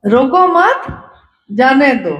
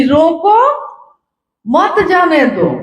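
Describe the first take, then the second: First: रोको मत rises as one group, pause, जाने दो falls; pause after मत. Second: रोको rises, clear pause, then मत जाने दो together; pause after रोको. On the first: Guru brother relays the garbled order, pausing after मत. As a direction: join मत to रोको, then break before जाने दो. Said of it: "कॉमा भूल गया वो". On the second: Sahab tells the man beside him, pausing after रोको. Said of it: "comma". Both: Shown as a demonstration.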